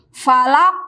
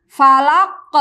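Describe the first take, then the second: No difference in how they are said.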